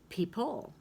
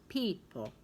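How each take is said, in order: First: The stress is on the second syllable. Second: The stress is on the first syllable. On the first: The speaker calls it wrong. "if you were to put the stress mark over here" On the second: The speaker calls it right. "P is kind of the strong syllable"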